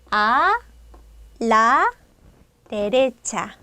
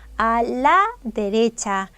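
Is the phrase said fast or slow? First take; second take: slow; fast. First: It is said slowly, syllable by syllable. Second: It is said quickly, as one run. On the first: "이를 천천히 한번 발음해 볼게요" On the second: "이 상태를 빨리 발음해 주면"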